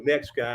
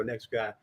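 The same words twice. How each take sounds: First: Said in the usual way. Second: Softer repeat of "Next guy"; quiet echo. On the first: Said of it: "I hear the producer go". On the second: Retold or imitated. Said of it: "and I go".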